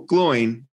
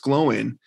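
First: The name is said as one syllable. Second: The name is said as two syllables. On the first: The speaker calls it wrong. "Like one Gloin. Syllable" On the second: The speaker calls it right. "no, it's Gloin"

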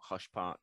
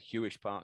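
First: The first word has one syllable, hush. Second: The first word has two syllables, hew-ish. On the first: The speaker calls it wrong. "not Hush Park" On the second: The speaker calls it right. "I do wish Matt Smith had said Hewish Park"

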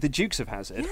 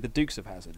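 First: Dukes is said with a British pronunciation. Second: Dukes is said with an American pronunciation. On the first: "We would say the Dukes of Hazzard" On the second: "but the Americans would say the Dukes of Hazzard"

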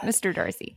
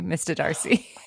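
First: It is said in an American accent. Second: It is said in a British accent. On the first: This is how it should sound in an American accent. The speaker calls it right. "not Mr. Darcy" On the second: This is how the actress kept saying it. The speaker calls it wrong. "the only thing that she kept saying that was crazy"

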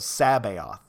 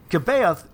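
First: The name begins with a soft S sound. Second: The name begins with a hard K sound. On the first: The speaker calls it right. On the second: The speaker calls it wrong.

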